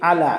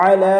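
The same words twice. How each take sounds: First: আলা opened with a plain hamza instead of আইন; wrong hamza. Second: আলা begun with আইন pressed from the middle of the throat; proper ain. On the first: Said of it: "আসলে আলা বলা যাবে না". (হামজা দিয়ে ভুল আলা) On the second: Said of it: "হলকের মধ্যখান থেকে একটু চাপ দিয়ে আমাদের আইন বলতে হবে". (গলার মাঝখান থেকে চাপ দিয়ে আলা) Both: Shown as a demonstration.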